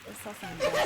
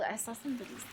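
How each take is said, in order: First: High, laughing through the words. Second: Said in the usual way. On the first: Real, not acted. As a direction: burst out laughing mid-phrase. Repeats phrase, second time laughing.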